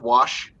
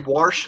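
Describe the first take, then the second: First: It is said without any R sound. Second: It is said with an R sound, like warsh.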